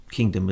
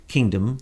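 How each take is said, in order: First: Said in the usual way. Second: Kingdom leaned on, rising at the end; stress on kingdom. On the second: Shown as a demonstration. To the audience, press kingdom with a rising stress. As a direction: hit the word kingdom. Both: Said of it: "with the emphasis on the word kingdom".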